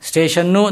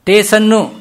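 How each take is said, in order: First: The word begins with st and has sh. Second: The word begins with t and has s. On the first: The speaker calls it right. "ಸ್ಟೇಷನ್ನು ಅಂತ ನಾವು ಮಾಡ್ತೀವಿ" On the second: The speaker calls it wrong. "ಟೇಸನ್ನು ಅದು ಗ್ರಾಮ್ಯ"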